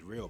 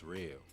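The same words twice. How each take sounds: First: The vowel is short and plain. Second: The vowel is stretched out long.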